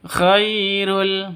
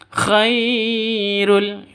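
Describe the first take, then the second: First: The first syllable is short and said smoothly. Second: The first syllable is drawn out or forced. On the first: The speaker calls it right. "Yang betul langsung khairul begitu" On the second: The speaker calls it wrong. "Khairul itu salah ya"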